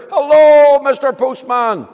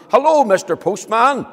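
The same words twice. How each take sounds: First: High, very loud call; straining to be heard from far below; louder shout. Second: High, loud call; a friendly shout up the path; shouting to the postman. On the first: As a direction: yell it so he finally hears. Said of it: "so he had to shout louder". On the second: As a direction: call out to someone far off. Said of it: "he shouted to the postman". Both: Acted.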